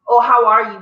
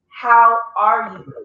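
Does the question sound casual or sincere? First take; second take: casual; sincere. First: It sounds casual and offhand. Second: It sounds sincere and caring.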